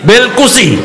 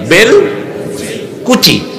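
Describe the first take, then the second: First: The word is said in one smooth piece. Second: The word is split with a break between parts.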